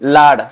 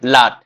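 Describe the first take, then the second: First: The word ends in a 'd' sound. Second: The word ends in a 't' sound. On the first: The speaker calls it right. "Actually ଲାଡ ପିଲେ ଠିକ" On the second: The speaker calls it wrong. "ବଡ ଲାଟ ଟା ଭୁଲ"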